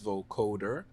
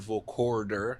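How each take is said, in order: First: No r sound comes before the d. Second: An r sound comes before the d. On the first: The speaker calls it right. "it's vocoder" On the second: The speaker calls it wrong. "It's not vocorder"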